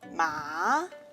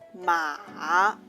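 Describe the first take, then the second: First: The pitch rises from middle to high. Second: The pitch starts low, then rises. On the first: "Rising tongue, the second tongue" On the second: "Low rising tongue"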